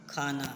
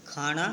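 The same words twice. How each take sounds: First: खाना with a plain dental न, quiet and falling; correct pronunciation. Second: खाना with a retroflex ण, khaaṇa, rising; wrong pronunciation. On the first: Teacher gives the corrected form quietly after the wrong one. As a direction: say खाना softly as khaana, plain n. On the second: Teacher gives the wrong form first, then the right one. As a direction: say खाना as khaaṇa, tongue curled back. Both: Shown as a demonstration. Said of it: "अशुद्ध और शुद्ध".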